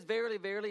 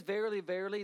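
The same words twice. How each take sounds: First: "Verily, verily" raised and weighty; emphatic verily. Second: "Verily, verily" said with emphasis like an exclamation point; emphatic verily. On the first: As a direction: stress both "verily" words as a call to attention. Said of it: "it means truly, truly". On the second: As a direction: punch both "verily" words. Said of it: "emphatically putting an exclamation point". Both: Shown as a demonstration.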